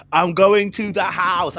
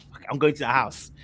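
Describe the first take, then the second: First: Louder, slower resolve on going; determined. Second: Said in the usual way. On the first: Retold or imitated. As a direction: dig in and state the decision. Repeated with resolve.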